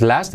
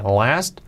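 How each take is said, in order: First: "last" with a plain Spanish A, rising; the mistaken "last", held up for correction; wrong pronunciation. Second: "Last" begun on a drawn-out English L; clear L. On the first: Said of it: "No es last". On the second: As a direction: lean on the L of "Last". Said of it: "Con la L". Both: Shown as a demonstration.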